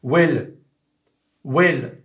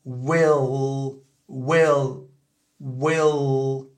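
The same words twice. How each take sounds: First: Well with the tongue tip on the palate; French L. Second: Well with a dark L at the upper teeth; well, dark American L, slow. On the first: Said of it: "voilà ce que ça donne". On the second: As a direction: well avec le L américain. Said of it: "Donc ça fait". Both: Shown as a demonstration.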